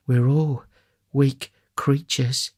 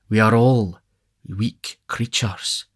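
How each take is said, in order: First: Higher, slow, measured lady; matron's voice. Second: Beadle's voice. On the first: Matron laying down a general principle, slow and higher. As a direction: pronounce it slowly in a higher lady's voice. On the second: Beadle with his arm round the matron, slow echo. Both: A narrator's reading.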